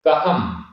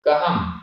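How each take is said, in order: First: The vowel before the final m is short. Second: The same.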